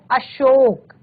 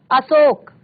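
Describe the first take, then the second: First: अशोक with a clear sh, "ashok"; correct pronunciation. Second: अशोक with plain s, "asok"; wrong pronunciation. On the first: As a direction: say अशोक with the sh of शेर. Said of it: "सही शब्द है". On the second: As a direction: say अशोक with the s of सड़क. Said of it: "सड़क वाला स है". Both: Shown as a demonstration.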